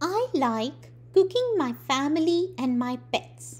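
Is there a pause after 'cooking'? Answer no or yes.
no. It runs on without a pause after cooking. The speaker enjoys cooking family members and pets. The speaker calls it wrong. "इस संकेत में कोई भी अल्पविराम यानी comma नहीं है"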